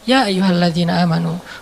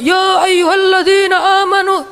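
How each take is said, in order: First: It is said softly and calmly. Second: It is said loudly, like shouting.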